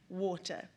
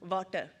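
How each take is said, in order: First: It is said in a plain English accent. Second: It is said in an imitated Sri Lankan accent.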